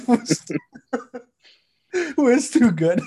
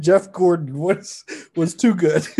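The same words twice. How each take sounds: First: After laughing hard. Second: Said in the usual way. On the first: Real, not acted. Laughing retake. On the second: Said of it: "let's re-record that".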